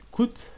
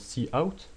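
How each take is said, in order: First: The word is said as one syllable. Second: The word is said as two syllables. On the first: It is a quicker shortcut. "je dis coûte pour aller plus vite" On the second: It is the usual way to say it. "normalement ça se prononce see out"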